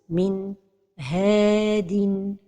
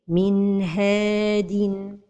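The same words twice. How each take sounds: First: There is a break between N and H. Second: The N flows smoothly into the H. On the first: The speaker calls it wrong. "c'est la pause" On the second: The speaker calls it right. "la prononciation correcte est"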